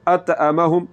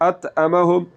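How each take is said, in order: Both takes have the same delivery.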